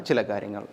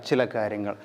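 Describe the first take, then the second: No difference in how they are said.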